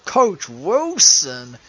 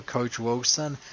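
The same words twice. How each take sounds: First: Loud, drawn-out name with swooping pitch; mock-dread exclamation. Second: Said in the usual way. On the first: Host naming the coach who makes skin crawl, loud mock dread. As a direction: stretch both words out loudly for effect.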